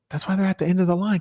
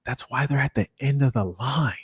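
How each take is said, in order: First: That's why they're at the end of the line said higher and fast, hammering it home; emphatic repeat. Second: Said in the usual way. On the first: Shown as a demonstration. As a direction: repeat it with a knowing punch.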